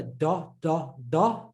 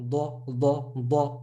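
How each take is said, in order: First: "da" with a flat tongue; plain, untrapped "da"; light Dal-like D. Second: "da" as a heavy, trapped D; heavy Dad. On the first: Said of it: "starting to hear difference from the". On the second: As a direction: curve the tongue for a dark "da". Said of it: "Who can hear difference?". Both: Shown as a demonstration.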